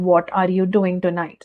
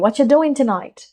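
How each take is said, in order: First: Every word is said in full. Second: The word are is dropped. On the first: "normally बगैर accent के" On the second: "तो हम भी वैसे ही कहेंगे"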